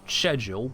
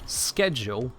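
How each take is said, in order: First: The word begins with an 'sh' sound. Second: The word begins with an 'sk' sound. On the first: This is the traditional British form. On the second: This is the form adopted through American influence.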